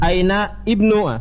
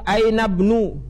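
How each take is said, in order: First: The i sound of ibnu is pronounced separately. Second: The words are joined, dropping the i sound. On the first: The speaker calls it wrong. "jangan antum baca aina ibnu, salah" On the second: The speaker calls it right. "tapi ketika disambung aina bnu"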